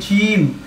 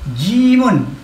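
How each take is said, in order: First: The word stops at the final m sound. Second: The word ends with an added -un syllable. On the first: "disebut berhenti sebagai jim"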